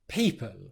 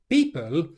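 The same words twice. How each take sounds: First: The P is released with a clear puff of air. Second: The P has no puff of air, nearly B. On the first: The speaker calls it right. "instead of people" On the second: The speaker calls it wrong. "pronounced it in an unaspirated way, which sounds a bit more like people"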